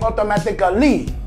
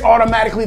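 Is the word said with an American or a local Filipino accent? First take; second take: Filipino; American. First: It is said with a local Filipino accent. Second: It is said with an American accent.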